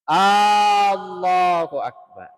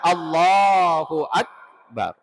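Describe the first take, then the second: First: An alif vowel is drawn out long. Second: The alif vowels are kept short. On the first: The speaker calls it wrong. "Eh nafalle fayalifuna" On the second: The speaker calls it right. "Jadi yang benar"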